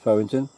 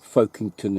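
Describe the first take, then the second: First: The first syllable sounds like 'fow'. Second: The first syllable sounds like 'folk'. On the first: It is how local people say the name. "locally it's Fowington" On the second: It is an outsider's way of saying the name. "if you want to say it that way"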